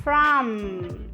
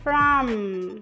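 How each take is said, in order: First: It ends with the lips fully closed on m. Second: The same.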